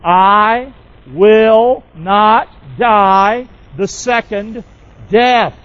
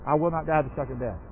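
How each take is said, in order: First: Very slow and louder, every word spaced apart; slow declaration. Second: Softly read. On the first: Pastor leads the church, slow and emphatic word by word. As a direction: draw each word out so the church can echo it. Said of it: "Would you say that with me?". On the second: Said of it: "Pop that saying back up there". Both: Shown as a demonstration.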